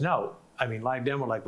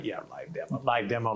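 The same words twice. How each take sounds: First: Said in the usual way. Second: Dry, doubtful repeat under the breath; sarcastic mutter. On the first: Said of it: "he goes". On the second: Retold or imitated. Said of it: "And I'm going".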